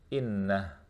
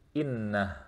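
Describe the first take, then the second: First: The word ends abruptly on a stopped final consonant. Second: The same.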